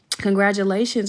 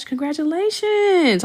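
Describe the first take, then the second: First: Said in the usual way. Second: High, slow sung-out congratulations; drawn-out congratulations. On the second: Real, not acted. Congratulating pregnant viewer Ash, slow high sung-out cheer. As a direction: stretch it out with delight.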